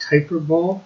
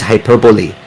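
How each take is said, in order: First: Hyperbole said like "hyper-bowl"; hyperbole with a silent final e; mispronounced hyperbole. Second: Hyperbole said "hy-PER-buh-lee"; hyperbole ending in a sounded "lee"; correct hyperbole. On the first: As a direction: say hyperbole as hyper-BOWL, two words run together. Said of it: "I always thought it was pronounced". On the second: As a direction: say hyperbole in four syllables, stress on PER. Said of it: "Nope. It is hyperbole". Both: Shown as a demonstration.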